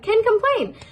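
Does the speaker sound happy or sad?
happy. It is said cheerfully, with a smile. Everything is going so well there is nothing to complain about. "but with a happy smile"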